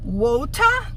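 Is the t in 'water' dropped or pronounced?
pronounced. The t in water is pronounced. "no inglês britânico"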